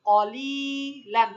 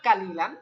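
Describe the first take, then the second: First: The first syllable sounds heavy and dark, like 'qo'. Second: The first syllable sounds light and open, like 'ka'. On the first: The speaker calls it right. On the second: The speaker calls it wrong. "Not কালিলান"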